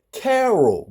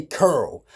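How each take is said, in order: First: "Carol" with a clear "care" first syllable; careful standard "Carol"; standard pronunciation. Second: "Curl" for Carol, squeezed into one syllable; slow "Curl", rhyming with girl; Baltimore pronunciation. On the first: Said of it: "Her real name is Carol". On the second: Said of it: "but I say Curl". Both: Shown as a demonstration.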